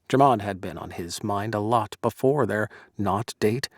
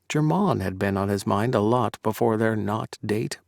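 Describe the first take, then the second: First: The name Drummond carries no special emphasis. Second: The name Drummond is said with strong emphasis.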